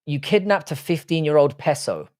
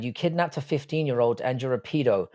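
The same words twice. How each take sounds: First: "peso" said as a mock quote, slightly raised; mocking misquote. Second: Said in the usual way. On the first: Quoting a viewer's garbled chat message back to him. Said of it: "Your exact sentence in your shitty English". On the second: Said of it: "See, that's not what you said".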